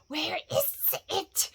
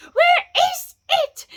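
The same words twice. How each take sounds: First: Slow, high, hissing whisper; drawn-out, whispery creature whine; Gollum crying out. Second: Very high, loud, slow screech; drawn-out frantic creature wail; Gollum crying out. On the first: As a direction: whimper it in rising panic. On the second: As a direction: screech it in full panic. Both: A narrator's reading. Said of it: "Bilbo heard him crying".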